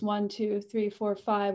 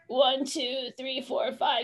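First: The voice sounds open and relaxed, neither squeezed nor spread. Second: The voice sounds squeezed and tight in the throat. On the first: "which is mid and kind of a vertical thyroid" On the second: "we also have constrict"

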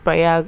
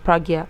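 First: The name is said as Pray-ag. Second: The name is said as Prag-ya. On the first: The speaker calls it right. "I think it's Prayag or something" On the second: The speaker calls it wrong. "I'm always pronouncing it as Pragya. But I know it's not Pragya"

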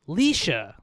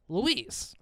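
First: The name is said as Leisha. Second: The name is said as Louise. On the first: The speaker calls it right. "it's actually pronounced Leisha" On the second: The speaker calls it wrong. "So I just assumed it was Louise"

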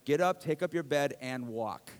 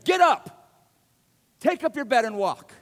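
First: It is read in a calm, ordinary way. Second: It is read with strong, forceful intensity.

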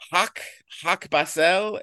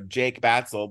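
First: The first name begins with an H sound. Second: The first name begins with a J sound. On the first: This is a foreign speaker's mispronunciation. The speaker calls it wrong. "he pronounced it Hak Batsell" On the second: This is the name said correctly. The speaker calls it right. "He got to my name"

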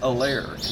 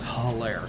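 First: The name starts with a vowel, no h. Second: The name starts with an h sound. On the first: The speaker calls it right. "it's pronounced Alaire" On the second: The speaker calls it wrong. "not Hilaire"

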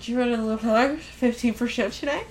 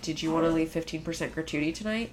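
First: The words are slurred together and unclear. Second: The words are spoken clearly and fully. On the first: The speaker calls it wrong. "The rest of it's like" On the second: The speaker calls it right. "I only say it right 30% of the time"

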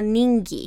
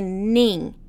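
First: The syllable ends with a hard g sound. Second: The syllable ends in a plain nasal sound. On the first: The speaker calls it wrong. "a gente não fala ning" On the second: The speaker calls it right. "É nin"

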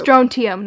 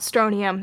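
First: The t sound is clearly pronounced. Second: The t sound is left out. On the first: The speaker calls it right. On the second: The speaker calls it wrong. "not strontium. Sorry, I always miss the T"

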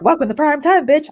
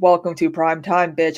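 First: The line is said at a quick, rushed pace. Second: The line is said at a normal, unhurried pace. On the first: This is sped up so it sounds normal once the voice is slowed down. "I need to talk faster" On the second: This is how it would sound without the voice slowed down afterwards. "instead of saying"

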